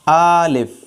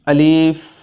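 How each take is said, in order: First: The first vowel is drawn out long. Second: The second vowel is drawn out long. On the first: "ये आ ज़बर अलिफ ज़बर आ, अलिफ खड़ी ज़बर आ, तो ये भी किसी तरह जायज़ नहीं है।" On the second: "यहाँ पर वो या पढ़ लेते हैं"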